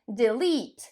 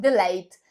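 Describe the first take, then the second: First: The second syllable has a long 'ee' vowel. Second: The second syllable has an 'ay' vowel. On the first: The speaker calls it right. "normalnie długie i, tam nie ma w ogóle ej" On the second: The speaker calls it wrong. "wszyscy mówią delayed"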